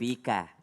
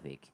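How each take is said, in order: First: The word ends with a final vowel sound. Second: The final vowel is dropped, ending on k.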